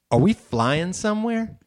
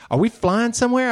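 First: Mock wondering. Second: Mock eager question. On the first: Son's first question at airport. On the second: Son's question repeated after interruption.

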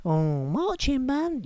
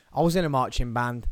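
First: Very high, slow put-on voice; exaggerated high-pitched astonishment; mock amazed listener. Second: Said in the usual way. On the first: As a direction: coo it slowly in falsetto. Voices listener's reaction to his revelation.

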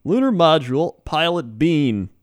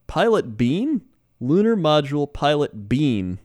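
First: Said in the usual way. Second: Mock announcer voice, high and drawn out; overacted anime dub. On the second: Shown as a demonstration. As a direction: call out the name like a cartoon hero. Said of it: "sounds like an anime character".

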